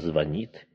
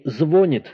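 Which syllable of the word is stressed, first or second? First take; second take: second; first. First: The stress is on the second syllable. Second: The stress is on the first syllable. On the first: The speaker calls it right. "а «звонит»" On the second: The speaker calls it wrong. "не «звонит», как мы иногда можем слышать"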